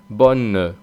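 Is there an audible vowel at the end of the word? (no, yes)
yes. It ends with a faint extra e vowel. This is how it is said in the south. "mientras que en el sur pronuncian bonne, en el sur hace una especie de E"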